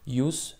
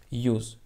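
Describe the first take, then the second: First: "Use" ending in a voiceless s, like "yoos". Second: "use" ending in a voiced z, like "yooz". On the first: Teacher repeats first pronunciation, "Use" ending in s. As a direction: say "Use" with an unvoiced final s. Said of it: "Талаффузи якум use". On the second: Teacher repeats second pronunciation, "use" ending in z. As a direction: say "use" with a buzzed final z. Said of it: "талаффузи дигар use". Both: Shown as a demonstration.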